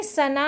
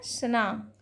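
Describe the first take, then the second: First: सना as two syllables, "sa-na"; wrong pronunciation. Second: सना run together as "sna"; correct pronunciation. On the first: Teacher showing students the error, सना as "sa-na". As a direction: put a full a after s in सना. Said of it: "नहीं है". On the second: Teacher correcting students, सना as one syllable "sna". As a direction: join s straight onto n in सना. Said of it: "सना नहीं है". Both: Shown as a demonstration.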